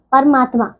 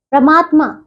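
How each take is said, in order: First: Said in the usual way. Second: परमात्मा squashed to "pramaatmaa"; mispronounced परमात्मा. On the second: Shown as a demonstration. Teacher shows pupils the error, "pra" opening परमात्मा. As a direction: run p and r together in परमात्मा. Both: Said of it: "नहीं".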